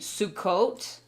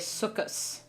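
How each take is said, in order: First: The word ends with a T sound. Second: The word ends with an S sound. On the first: This is the Hebrew pronunciation. "in Hebrew, we would say Sukkot" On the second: This is the Yiddish pronunciation. "there's more of an S sound rather than a T"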